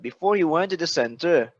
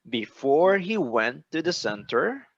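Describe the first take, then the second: First: The phrase is said quickly and rushed. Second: The phrase is said slowly and carefully. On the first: The speaker calls it wrong. "earlier you said before he went to the center. Okay, it's so fast" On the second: The speaker calls it right. "You see how slow I take my time?"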